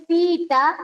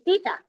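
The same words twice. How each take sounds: First: "tita" with the i doubled, ti-i-ta; hiatus, separated vowels. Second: "tita" with one short i, ti-ta; vowels run together. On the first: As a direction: split the long i of "tita" into two syllables. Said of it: "para que suenes ahí, tiene que separarse". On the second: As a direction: say "tita" as just two syllables. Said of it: "Caso contrario, tú vas a, tú vas a decir". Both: Shown as a demonstration.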